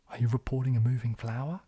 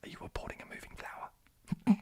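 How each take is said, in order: First: Louder line in a Kiwi accent. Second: Whispered in a Kiwi accent. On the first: Streamer trying the film line their own way, Kiwi accent. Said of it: "don't know how to say these things". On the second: Streamer attempting the film line for viewers, Kiwi whisper. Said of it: "how to whisper in a Kiwi accent". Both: Shown as a demonstration.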